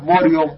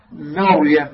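First: "مريم" with a thick, rounded "mo" at the start; wrongly heavy mim. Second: "مريم" with a light, open "ma" before the ra; light mim. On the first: Teacher shows students what not to say, heavy mim. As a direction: darken the mim of "مريم" into "mor-yam". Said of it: "لا تفخم الميم، لا تقول". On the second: Teacher shows students the correct way, light mim. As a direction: keep the mim of "مريم" thin, never "mo". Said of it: "هكذا". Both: Shown as a demonstration.

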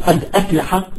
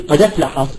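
First: "قد أفلح" as two words with a glottal stop before "أفلح"; full hamza. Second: "قد أفلح" run together as qada-flaha; no glottal stop in "قد أفلح"; transferred vowel. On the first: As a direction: separate qad from aflaha. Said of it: "بتصير قد أفلح". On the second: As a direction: move the vowel of "أفلح" onto the d of "قد". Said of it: "بعملية النقل". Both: Shown as a demonstration.

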